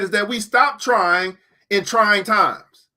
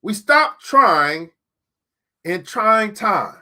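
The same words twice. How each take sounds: First: Slow, leaning on stop and trying; pun-stressed, slowed way down; slow pun emphasis. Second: Very slow, each word set apart; repeated slowly for weight; slow emphatic repeat. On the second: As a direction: spell out the pun slowly. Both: Shown as a demonstration. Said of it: "There's wisdom even in puns".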